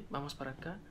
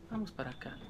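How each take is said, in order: Both takes have the same delivery.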